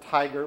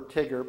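First: The first vowel is long, as in tiger. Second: The first vowel is short, as in tigger. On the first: "We could pronounce it Tiger" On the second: "but we prefer TIGR"

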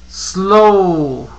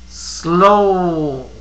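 The two takes are said the same way.

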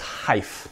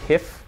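First: The word has a long i vowel. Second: The word has a short i vowel. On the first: "A long I, so it's hyph"

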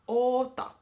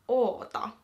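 Both takes have the same delivery.

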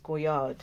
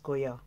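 First: The name ends with a d sound. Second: The name ends without a d sound. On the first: The speaker calls it wrong. "it's not pronounced Goyard as we pronounce it" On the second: The speaker calls it right. "it's pronounced Goya"

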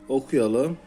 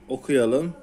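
The two takes are said the same way.

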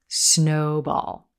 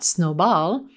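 First: The stress falls on the first syllable, 'snow'. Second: The stress falls on the second syllable, 'ball'. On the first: The speaker calls it right. "you're always going to emphasize the first word" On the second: The speaker calls it wrong. "So it's not snowball"

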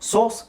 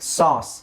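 First: The vowel sounds like a rounded 'oh'. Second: The vowel sounds like an open 'ah'. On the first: This is the British pronunciation. "British ಸೋಸ್" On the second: This is the American pronunciation. "ಇದು Americans pronunciation. ಇದನ್ನು ಸಾಸ್, ಸಾಸ್, ಆ ಜಾಸ್ತಿ use ಮಾಡ್ತಾರೆ ಅವರು"

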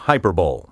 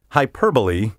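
First: The word ends with a sound like 'bowl'. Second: The word ends with an 'ee' sound. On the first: The speaker calls it wrong. "there's a Super Bowl, a Sugar Bowl, a Cotton Bowl, and a Rose Bowl, but there is no hyperbole" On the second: The speaker calls it right. "Hyperbole is the only recognized pronunciation"

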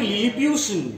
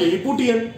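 First: The ending is pronounced 'pyoo-shun'. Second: The ending is pronounced 'poo-tee-an'. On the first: The speaker calls it right. "English language में लिलीपुटियन है ही नहीं। है क्या वहां पे?" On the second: The speaker calls it wrong. "और हम लोग अभी तक पढ़ते क्या आ रहे हैं?"

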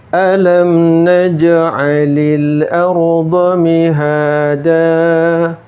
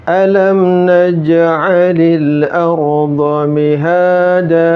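The two takes are said the same way.

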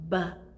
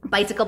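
First: The word is said very slowly. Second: The word is said very fast.

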